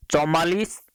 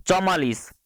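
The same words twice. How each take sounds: First: चौवालीस read as a listed option, rising at the end; option read with rise. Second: चौवालीस said with a closing fall, ending the list; final option, falling. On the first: Teacher reading out quiz options, rising list tune. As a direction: offer चौवालीस as one choice, voice lifting. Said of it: "Hindi वर्णमाला में कितने वर्ण होते हैं?". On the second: Teacher closing the list of quiz options, falling tune. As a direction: land चौवालीस firmly as the last choice. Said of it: "तो हिंदी वर्णमाला में कुल वर्णों की संख्या चौवालीस होती है।". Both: Shown as a demonstration.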